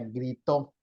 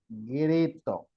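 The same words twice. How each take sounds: First: The stress is on the second syllable. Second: The stress is on the first syllable. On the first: The speaker calls it wrong. "porque si no sería grito" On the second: The speaker calls it right. "Entonces es"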